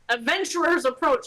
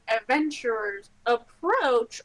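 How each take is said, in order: First: It is said urgently, like an alarm. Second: It is said in a calm, inviting way.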